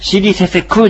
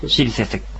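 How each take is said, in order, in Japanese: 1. この単語は'ku'で終わります。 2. この単語は'k'の音で終わります。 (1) "シリセセクじゃないんですね" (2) "シリセセクという発音になります"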